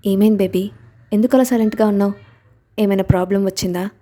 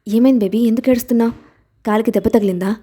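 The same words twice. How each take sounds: First: Gently coaxing. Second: Husband hurrying to his hurt wife, anxious; worried asking. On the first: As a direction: coax her gently to open up. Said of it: "అని లాలనగా అడిగాడు". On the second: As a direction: rush to her, worried. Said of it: "ఆ అరుపుకి వేగంగా ఆమె దగ్గరికి వెళ్ళి". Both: A narrator's reading.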